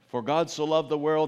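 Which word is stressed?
none. It is said flatly with no word stressed. It doesn't mean a whole lot. "when I just do it very monotonely"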